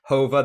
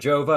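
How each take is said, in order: First: The name begins with an H sound. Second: The name begins with an English J sound. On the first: The speaker calls it right. "the Latin or Spanish uh, pronunciation" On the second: The speaker calls it wrong. "I called it Jova, and I was mistaken"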